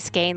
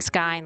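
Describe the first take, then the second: First: The vowel rhymes with the word rain. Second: The vowel rhymes with the word mine. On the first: "I say skein like rain" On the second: "he was saying skein like mine"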